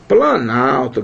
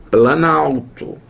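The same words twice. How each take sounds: First: Said in the usual way. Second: Planalto drawn out slowly, syllable by syllable; slow demo word. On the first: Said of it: "Planalto, galera". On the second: Shown as a demonstration. Teacher spelling out planalto slowly for students. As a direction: say planalto slowly so the class hears each part. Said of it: "Planalto, galera, sinceramente".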